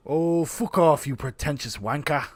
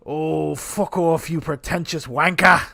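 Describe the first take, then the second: First: A second go at the London put-down; English accent. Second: Put-on slow English accent, loud on wanker; drawn-out London put-down; little Ray Winston. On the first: Pretend. Retrying the English accent on Sasha. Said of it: "I'm not good". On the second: A bad English accent aimed at Sasha. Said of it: "I'm not good. That was a little Ray Winston".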